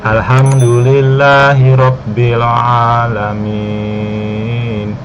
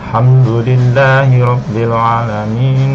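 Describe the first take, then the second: First: The last long vowel is drawn out before stopping. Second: The last long vowel is short, running straight on. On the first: The reading stops at this word. "lima sampai enam harkat cara bacanya" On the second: The reading continues without stopping. "jadi bacanya dua harkat ya"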